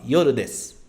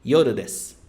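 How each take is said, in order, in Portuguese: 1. A frase termina com um som de s puro. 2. A frase termina com um som de s puro.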